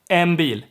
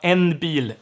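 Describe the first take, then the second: First: The n blends into an m before bil. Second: The n is kept as a clear n. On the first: The speaker calls it right. "It's nasal and lip sealed" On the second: The speaker calls it wrong. "sounds like you are gonna speak very clearly"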